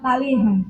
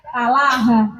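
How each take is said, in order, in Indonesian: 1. Vokal terakhir condong ke e. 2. Vokal terakhir adalah a terbuka yang biasa. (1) "bukan taleha" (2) "maka dibaca talaha"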